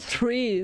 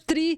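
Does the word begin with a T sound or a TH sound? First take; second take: TH; T. First: It begins with a TH sound. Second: It begins with a plain T sound. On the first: This is the standard native form. "Não é three, com aquele T H" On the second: This is the agreed maritime form for clarity. "o três é tri"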